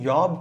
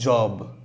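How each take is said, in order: First: The word begins with a y sound. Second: The word begins with a j sound. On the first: The speaker calls it wrong. "யாப் கிடையாது" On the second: The speaker calls it right. "இது மட்டும் ஜாப்"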